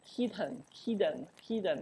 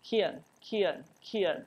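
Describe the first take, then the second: First: Kitten with a clear aspirated t in the middle; full t in kitten. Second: Kitten with a glottal catch in place of the t; glottal stop in kitten. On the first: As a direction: say kitten with the t fully released. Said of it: "他不这样发". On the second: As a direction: swallow the t of kitten into the throat. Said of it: "他直接用个喉音放在这个位置". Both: Shown as a demonstration.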